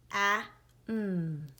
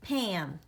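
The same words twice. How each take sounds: First: "P-A-M" as three separate sounds; sounded out. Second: Said in the usual way. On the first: Shown as a demonstration. Teacher tapping out Pam for pupils, sounded out. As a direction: say "P-A-M" sound by sound, short A, held M. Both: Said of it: "pound and tap Pam".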